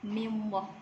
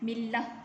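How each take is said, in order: First: The 'l' is said thick and heavy. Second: The 'l' is said thin and light. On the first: The speaker calls it wrong. "bukan mimwah" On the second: The speaker calls it right. "kita baca dengan millah"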